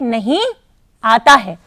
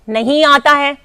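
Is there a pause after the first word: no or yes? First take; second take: yes; no. First: There is a short pause after the first word. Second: It is said straight through without a pause. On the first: No, you are wrong, the water does come. "एक मित्र ने कहा नहीं, थोड़ा रुका, आता है" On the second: The water does not come. "एक ने कहा नहीं आता है, इसका मतलब नहीं आता है।"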